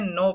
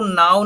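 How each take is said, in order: First: नो said like no, K silent; नो with an oh sound, falling; correct pronunciation. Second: नाउ said like now, as the wrong reading; नाउ with an ow sound; wrong pronunciation. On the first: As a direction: read नो as the right word. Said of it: "नो पढ़ना है". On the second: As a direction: read नाउ the wrong way, rhyming with cow. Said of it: "इसको नाउ नहीं पढ़ना है". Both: Shown as a demonstration.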